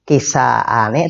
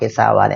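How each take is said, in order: First: A glottal stop comes before the ending. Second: A w sound comes before the ending. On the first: The speaker calls it right. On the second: The speaker calls it wrong.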